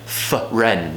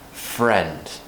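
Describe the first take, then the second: First: An extra vowel sound splits the f and r. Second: The f and r blend as one sound. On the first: The speaker calls it wrong. "Just don't create a sound in the middle" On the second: The speaker calls it right. "we just need to treat it like one whole sound"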